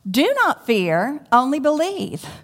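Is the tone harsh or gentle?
harsh. It is said in a harsh, stern tone.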